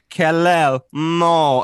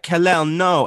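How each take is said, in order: First: It is said slowly. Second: It is said quickly.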